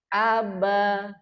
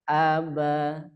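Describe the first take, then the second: First: The word is said on a high, raised pitch. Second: The word is said on a low, lowered pitch. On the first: "kolom pertama dibaca naik" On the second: "kolom ketiga dibaca turun"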